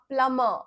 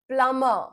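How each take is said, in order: The two takes are said the same way.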